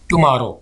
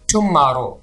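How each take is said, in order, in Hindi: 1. बीच के m की आवाज़ सादी बोली जाती है। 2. बीच के m की आवाज़ पर ज़्यादा ज़ोर दिया जाता है। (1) "टुमारो सिंपल" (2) "आपने इसको ऐसे नहीं कहना टुमारो, थोड़ा सा स्ट्रेस डाल देंगे"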